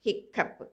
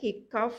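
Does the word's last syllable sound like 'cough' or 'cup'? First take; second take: cup; cough. First: The last syllable sounds like 'cup'. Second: The last syllable sounds like 'cough'. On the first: The speaker calls it right. "ஆனால் இங்கே அதனுடைய pronunciation கப்" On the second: The speaker calls it wrong. "அந்த ரெண்டாவது spelling வேர்டில் ஹிக்காஃப் அப்படிங்கிற மாதிரி இருக்குது"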